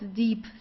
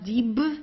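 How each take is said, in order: First: The word ends with a p-like sound. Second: The word ends with a strong b sound. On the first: The speaker calls it right. "Sounds more like a P at the end" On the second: The speaker calls it wrong. "the B, it's not pronounced very strong, so it's not dieb"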